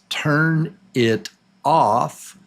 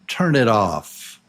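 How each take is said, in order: First: Each word is said separately. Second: The words run together without breaks.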